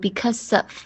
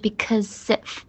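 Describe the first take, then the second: First: The second word is reduced to sound like 'of'. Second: The second word keeps a clear 'if' sound. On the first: The speaker calls it wrong. "不要读because of" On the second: The speaker calls it right. "所以是because if"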